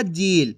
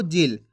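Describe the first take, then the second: First: जील with a long, stretched ee; drawn-out vowel. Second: जिल with a short, unstretched i; short vowel. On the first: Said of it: "खींच के नहीं पढ़ना". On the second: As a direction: keep the vowel in जिल brief. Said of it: "इसी तरीके से पढ़ना आपको". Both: Shown as a demonstration.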